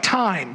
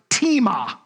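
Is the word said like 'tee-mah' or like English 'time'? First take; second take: time; tee-mah. First: It sounds like the English word time. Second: It is said with two syllables, tee-mah. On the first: The speaker calls it wrong. "it looks like time, doesn't it? What I thought it was at first" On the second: The speaker calls it right. "No, it's actually pronounced tima"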